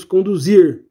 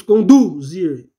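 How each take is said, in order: First: Conduzir with the last syllable, zir, stressed. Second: Conduzir read slowly with the stress on the first syllable, CON-duzir; wrong stress. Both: Shown as a demonstration. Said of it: "o acento tá na palavra zir".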